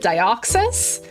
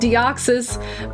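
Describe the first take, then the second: First: The first syllable sounds like 'die'. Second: The first syllable sounds like 'dee'. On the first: Other people say it this way. "some other people call it Dioxys" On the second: This is the speaker's own usage. "I say it as Deoxys"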